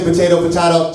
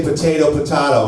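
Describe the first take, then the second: First: "potato" as po-TAY-to then po-TAH-to; first "potato" with ay, second with ah; two ways to say potato. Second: "potato" first with ay, then with ah; two ways to say potato. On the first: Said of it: "You don't say". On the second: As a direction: say "potato" as po-TAY-to, then po-TAH-to. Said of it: "guys that say". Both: Retold or imitated.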